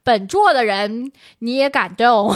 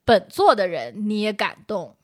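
First: It is said in Sichuan-accented Mandarin. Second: It is said in standard Mandarin.

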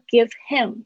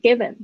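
First: Both words are said in full. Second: The words are merged into one reduced word.

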